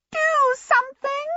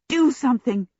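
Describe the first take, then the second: First: Very high, slow trumpeting shriek; shrill little djinn shout, words drawn out; small djinn shouting. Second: Higher-pitched, mildly urgent plea; an anxious aside to a companion; urgent appeal. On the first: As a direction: pipe it out like a silver trumpet. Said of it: "the small djinn shouted". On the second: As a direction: press them to act, without shouting. Sophie urges Abdullah amid the screaming. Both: A narrator's reading.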